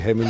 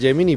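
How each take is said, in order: First: The G is a breathy, aspirated h sound. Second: The G is an English-style j sound. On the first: It is the local Extremaduran way of saying it. "con la G tan aspirada que tenemos aquí en Extremadura" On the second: It is the international way of saying it. "Suena muy internacional Gemini"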